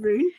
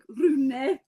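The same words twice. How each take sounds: First: The name is said with an English pronunciation. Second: The name is said with a Norwegian pronunciation. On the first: "he's in America, we're just going to go with Rune" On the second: "in Norway, ... it's like Rune, kind of"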